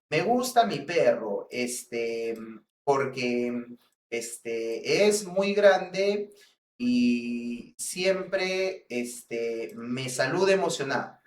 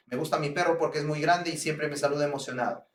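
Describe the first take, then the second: First: Halting read stuffed with "este"; hesitant student reading with fillers; full of fillers. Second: Quick, monotone read with no melody; fast flat reading-aloud voice; flat intonation. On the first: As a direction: stumble through, dropping "este" between phrases. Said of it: "Qué son las muletillas". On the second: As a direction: read it like a bored student, no rise or fall. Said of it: "es demasiado plana la entonación". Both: Shown as a demonstration.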